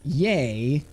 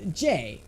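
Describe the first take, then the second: First: The letter starts with a y sound. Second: The letter starts with a dj sound. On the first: The speaker calls it wrong. "the way you pronounce J is not yay" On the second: The speaker calls it right. "this is a J"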